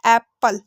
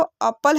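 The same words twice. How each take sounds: First: एप्पल with an open "ae" as in "cat"; correct apple sound. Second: एप्पल opened with a short "uh", as "UP-pal"; mispronounced apple. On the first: Teacher giving learners the right reading, एप्पल as "AEP-pal". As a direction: say एप्पल as "AEP-pal", in two clear beats. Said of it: "क्या है ये?". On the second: Teacher showing learners a wrong reading, एप्पल said as "UP-pal". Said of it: "ना तो एप्पल है". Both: Shown as a demonstration.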